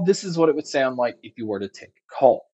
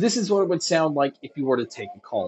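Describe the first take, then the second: First: The voice is heard without background crowd noise. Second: The voice is heard over background crowd noise. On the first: "here is a mic test using the GX07s" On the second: "here is a mic test with a crowd noise being played"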